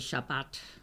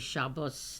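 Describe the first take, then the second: First: It is said in a modern Israeli accent. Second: It is said in an older Ashkenazi accent. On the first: This is how the word is said today. "They would say Shabbat" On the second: This is the older way the word was said. "I would say Shabbos"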